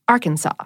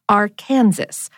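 First: The final S is silent. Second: The final S is pronounced. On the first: This is the older pronunciation. The speaker calls it right. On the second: This is the newer pronunciation. The speaker calls it wrong. "a new pronunciation note"

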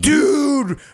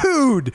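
First: It is said in a scared way. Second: It is said in an excited way.

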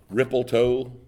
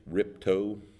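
First: Three syllables, with an added L sound. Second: Two syllables, with the middle syllable dropped. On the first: "they had the L" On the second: "Just make two syllables instead of the required three"

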